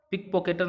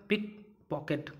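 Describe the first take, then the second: First: Teacher says पॉकेटर as the mistaken form; wrong form. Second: पिक पॉकेट said slowly and clearly; correct form. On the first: Teacher shows students the wrong word, plain. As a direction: pick pocketer, the wrong word. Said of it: "पिक पॉकेटर नहीं होता है". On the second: Teacher gives students the correct word, slow and clear. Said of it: "पिक पॉकेट होता है". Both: Shown as a demonstration.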